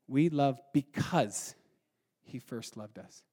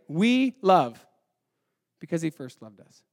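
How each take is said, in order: First: The stress is on the word because. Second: The stress is on the word love.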